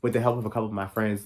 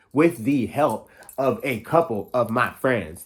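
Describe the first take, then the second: First: Rapid, rushed delivery; fast. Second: Slow, deliberate, every word clear; slow and careful. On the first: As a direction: rattle it off quickly. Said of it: "I speak so damn fast". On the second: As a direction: spell it out slowly on purpose. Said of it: "I speak so damn fast. I gotta slow down". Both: Shown as a demonstration.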